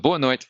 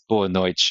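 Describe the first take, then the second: First: It is said in a European Portuguese accent. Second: It is said in a Brazilian Portuguese accent. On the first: "in Portugal Portuguese" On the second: "In Brazilian Portuguese, that one's"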